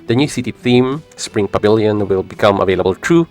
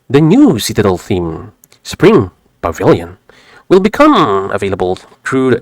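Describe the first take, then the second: First: It is read in a plain everyday voice. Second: It is read in an exaggerated put-on voice. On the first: The speaker calls it right. "I will just read it naturally" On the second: The speaker calls it wrong. "Maybe I could change my tone a little bit"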